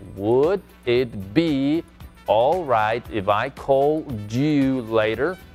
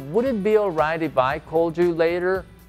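First: It is said slowly. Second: It is said at a normal speed.

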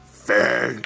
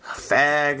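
First: It is said deep and angry. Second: It is said in a plain voice.

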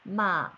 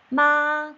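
First: The pitch dips low and then rises. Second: The pitch stays high and level. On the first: It means horse. "말이 됩니다" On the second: It means mother. "엄마가 돼요"

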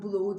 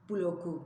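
First: The k is dropped and the vowel is lengthened. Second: A clear k sound is heard mid-word. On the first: The speaker calls it wrong. "Stoğu, bloğu değil" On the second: The speaker calls it right. "stoku, bloku gibi"

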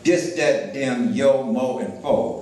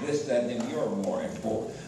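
First: Th and r sounds are dropped, dialect style. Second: Th and r sounds are fully pronounced, standard style.

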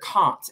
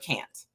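First: It is said with a British accent. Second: It is said with an American accent.

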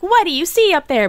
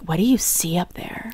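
First: The voice is plain and ordinary. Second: The voice is low and gravelly. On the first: The character seemed generic. "At first, I thought she was like" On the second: The character sounds attractive. "she has that growl in her voice, like the gravel growl"

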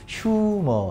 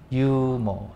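First: The word begins with an audible h sound. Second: The word begins with a vowel, no h sound. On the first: The speaker calls it wrong. "꼭 이걸 읽으라고 시키면 얘들 이렇게 이거 휴머 이래" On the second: The speaker calls it right. "휴머라 읽지 마"

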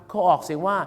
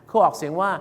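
No difference in how they are said.

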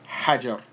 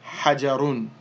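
First: The word ends on a bare r sound. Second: The word ends with a final -un sound. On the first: "we wouldn't pronounce the dhammatan, so we would just say hajar" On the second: "here we have the ra with the dhammatan"

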